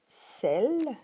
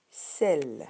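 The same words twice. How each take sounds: First: "celle" said higher, with a falling tune; first model word. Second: "celle" repeated lower, with a falling tune; second model word. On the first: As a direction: say it once in a raised voice for the class. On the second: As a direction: bring it down on the repeat. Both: Shown as a demonstration. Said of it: "je répète".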